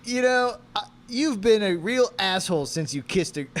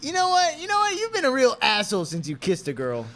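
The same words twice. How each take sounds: First: Loud, raised-pitch accusation; acted anger. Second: Very high, loud, hammed-up outburst; heated accusation. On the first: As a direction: start an angry accusation that falters. First take of quarrel line. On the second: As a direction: launch into the accusation at full pitch. Retake of quarrel line, more heated.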